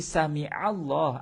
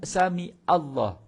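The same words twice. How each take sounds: First: A deep throat consonant comes before Allah. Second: A plain glottal stop comes before Allah. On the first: God hears. The speaker calls it right. "Ain yang menguatkan lafaz Allah itu, bukan alif tu" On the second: The verb becomes a word about misfortune. The speaker calls it wrong. "Dia guna hamzah. Salah tu"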